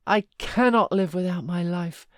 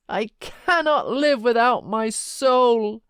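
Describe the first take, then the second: First: Loud anguished cry, CANNOT stressed; anguished lament. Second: Higher, louder, slow howl of grief; peak of despair. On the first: Heathcliff laments Catherine, loud and anguished. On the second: Heathcliff's grief peaks for Catherine, high, loud and slow. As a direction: stretch CANNOT into a slow desperate wail. Second, stronger repetition. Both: A narrator's reading.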